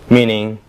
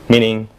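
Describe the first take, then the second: The two takes are said the same way.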